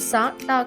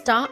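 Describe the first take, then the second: First: A vowel separates the s and t sounds. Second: The s and t blend with no vowel. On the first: The speaker calls it wrong. "కాకుండా" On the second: The speaker calls it right. "సంయుక్త శబ్దం స్టా అవుతుంది"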